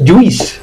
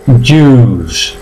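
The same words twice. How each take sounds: First: "juice" as "ju-is", the I heard; wrong, I sounded. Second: "juice" as long "yus", no I; slow "juice" on one pure u; silent I. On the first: Teacher shows the error, "juice" with sounded I. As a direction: mistaken "juice" with a "ui" glide. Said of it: "no es juice". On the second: Teacher gives the right form, "juice" with silent I. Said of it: "se pronuncia juice". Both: Shown as a demonstration.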